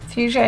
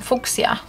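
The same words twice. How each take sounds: First: The word has an English pronunciation. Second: The word has a Polish pronunciation.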